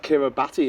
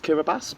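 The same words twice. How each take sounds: First: "Kiribati" said as spelt, ending bah-tee; spelling pronunciation. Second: "Kiribati" said with a final s sound; correct pronunciation. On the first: Guest naming the country as it is written, spelling pronunciation. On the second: Guest showing how the country is actually pronounced, correct pronunciation. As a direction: say "Kiribati" like KIRRI-bass. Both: Shown as a demonstration. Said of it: "is actually pronounced Kiribati".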